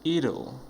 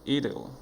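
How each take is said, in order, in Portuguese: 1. As palavras se juntam em uma só palavra reduzida. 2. As palavras se juntam em uma só palavra reduzida.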